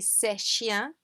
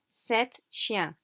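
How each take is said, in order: First: Sept is said without its final T sound. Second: Sept is said with its final T sound. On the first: It would not clearly mean seven. The speaker calls it wrong. "it would be very hard to say c'est chien" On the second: It clearly means seven. The speaker calls it right. "So to make sure we mean seven, we say sept chiens"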